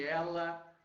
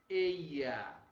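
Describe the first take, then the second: First: The middle consonant is a plain l. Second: The middle consonant sounds like a y. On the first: "Nada de ela" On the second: "E a letra I, ... que a maioria deles, inclusive Espanha, pronuncia assim"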